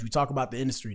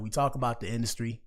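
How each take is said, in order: First: It is said at a fast pace. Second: It is said at a slower pace.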